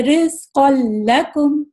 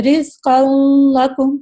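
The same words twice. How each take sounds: First: Slow "رزق لکم", straight into a clean doubled ل; simple, no ghunna. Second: "رزق لکم" with a drawn-out nasal hum before ل; wrongly added ghunna. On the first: Teacher corrects the mistake, "رزق لکم" read simply without nasal hum. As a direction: say "رزق لکم" slowly with no sound from the nose. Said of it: "simple پڑھنا ہے۔". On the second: Teacher demonstrates the mistake, "رزق لکم" with nasal ghunna before ل. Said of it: "غلط پڑھنا ہے تو دیکھیں میں کیسا پڑھ رہی ہوں". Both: Shown as a demonstration.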